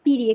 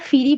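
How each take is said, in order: First: The word starts with a plain, unaspirated consonant. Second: The word starts with an aspirated, breathy consonant. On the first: This is the standard pronunciation. "প্রমিত ... main উচ্চারণটা কিন্তু হচ্ছে পিরি" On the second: This is a regional pronunciation. "অঞ্চলভেদে এটা ফিরি বলে অনেকে"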